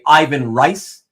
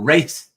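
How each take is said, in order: First: The surname starts with R and rhymes with 'nice'. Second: The surname starts with R and rhymes with 'face'. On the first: "as you many of you will say"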